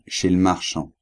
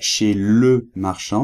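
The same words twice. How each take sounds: First: The e of 'le' is dropped. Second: The e of 'le' is fully pronounced. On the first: "il a mis une apostrophe" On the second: "il ne dit pas chez le marchand"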